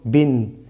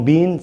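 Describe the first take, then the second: First: "bin" with a short i and sounded n; short vowel. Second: "bin" with a long drawn i, "biin"; wrongly lengthened vowel. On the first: Teacher correcting the long vowel, "bin" with short i. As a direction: keep the i in "bin" brief. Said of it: "y bin es corta". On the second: Teacher showing the mistake to avoid, "bin" with long i. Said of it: "no bin, sino bin". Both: Shown as a demonstration.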